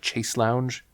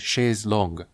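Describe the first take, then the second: First: The second word sounds like lounge. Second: The second word sounds like longue. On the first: The speaker calls it wrong. "It annoys me the same way when people call it a chaise lounge" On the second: The speaker calls it right. "It is a chaise longue"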